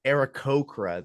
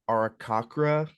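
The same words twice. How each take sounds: First: "Aarakocra" said as air-uh-KOH-kra; corrected pronunciation. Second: "Arakakra" guessed with KAH in the third syllable; unsure pronunciation. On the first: Game master repeating a player's correction, corrected pronunciation. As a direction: echo "Aarakocra" with a long O in KOH, falling at the end. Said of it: "There you go. See, see, someone knows". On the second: Game master guessing a race name for new players, unsure pronunciation. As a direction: say "Arakakra" tentatively, as ara-KAH-kra. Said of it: "don't even know how to pronounce". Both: Real, not acted.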